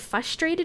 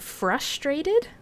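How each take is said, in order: First: The first R sound is left out. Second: The first R sound is clearly pronounced.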